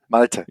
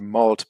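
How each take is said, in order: First: The name is said with two syllables. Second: The name is said as one syllable. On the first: This is the speaker's own version of the name. The speaker calls it right. "something like that. Malte" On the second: This is an easier, anglicized version. The speaker calls it wrong. "my American colleagues always used to say malt because that was easier for them"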